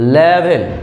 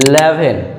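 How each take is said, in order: First: The word begins directly with an L sound. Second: The word begins directly with an L sound.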